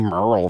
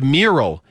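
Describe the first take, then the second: First: The word is clipped, with a middle syllable dropped. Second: The word is said in full, with every syllable. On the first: The speaker calls it wrong. "what other words would you pronounce like that?" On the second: The speaker calls it right. "No, it's a mural"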